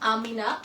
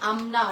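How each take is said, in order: First: A vowel sounds between the m and n. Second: No vowel sounds between the m and n. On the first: The speaker calls it wrong. "আমি প্রথমে ভুল বলেছিলাম" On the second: The speaker calls it right. "আমি পরে আছি [name]"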